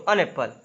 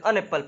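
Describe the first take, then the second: First: "an" read as "एन" before "apple"; wrong an reading. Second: "an" said as a short "अन" before "apple"; right an reading. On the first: Teacher showing students the wrong way, "an" as एन. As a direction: say "an apple" with "an" as a full "एन". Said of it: "an apple नहीं पढ़ते". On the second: Teacher showing students the right way, "an" as अन. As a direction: say "an apple" with "an" as a quick "अन". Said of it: "पढ़ते हैं". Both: Shown as a demonstration.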